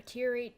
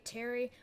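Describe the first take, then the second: First: "teary" rhyming with "dreary"; teary as TEER-ee. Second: "teary" mispronounced to rhyme with "dairy"; teary as TAIR-ee. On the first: Storyteller struggling with the word, "teary" said TEER-ee. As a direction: say "teary" with an ee as in "ear". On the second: Storyteller fumbling the word, "teary" said TAIR-ee. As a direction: say "teary" with the vowel of "air". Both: Shown as a demonstration. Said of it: "I don't know why I cannot say".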